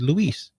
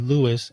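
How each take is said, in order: First: The name is said the Spanish way. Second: The name is said the English way. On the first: A Spanish speaker is addressing him. "people who address me in Spanish would majorly call me Luis" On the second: An English speaker is addressing him. "for the people who would address me in English, would majorly call me Louis"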